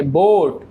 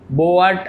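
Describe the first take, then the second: First: बोट with one long o; बोट said right as bote. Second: बोट with a split bo-ut; बोट said wrongly as bo-at; wrong o sound. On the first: (सही उच्चारण बोट) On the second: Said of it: "बोट ऐसे नहीं पढ़ेंगे". (गलत उच्चारण बोट) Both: Shown as a demonstration.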